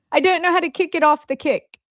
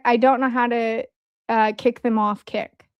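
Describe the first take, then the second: First: Higher-pitched, badly done British accent; crappy British accent. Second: Said in the usual way. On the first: Real, not acted. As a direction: slip into a clumsy British accent. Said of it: "I had a British accent when I did that, a, a crappy one". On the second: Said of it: "I don't know why I had".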